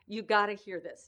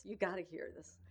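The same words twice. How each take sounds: First: Excited retelling. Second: Said in the usual way. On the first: Retold or imitated. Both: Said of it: "I was so excited".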